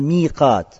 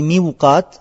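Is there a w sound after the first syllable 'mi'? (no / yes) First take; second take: no; yes. First: No w sound follows the first syllable. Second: A w sound follows the first syllable. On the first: The speaker calls it right. "а «миқат»" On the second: The speaker calls it wrong. "говорится не «миуқат»"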